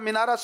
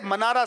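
First: The first syllable has an 'i' vowel. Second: The first syllable has an 'a' vowel. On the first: The speaker calls it wrong. "ہم تو ہمیشہ مینارا سنتے ہیں. وہ غلط ہے" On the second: The speaker calls it right. "منارا صحیح ہے"

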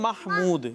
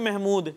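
First: The name is pronounced with Arabic sounds. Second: The name is pronounced with Urdu sounds. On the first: This is the original form of the name. "اصل ہے یہ محمود" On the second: This is the everyday local form of the name. "ہم کیا بولتے ہیں محمود"

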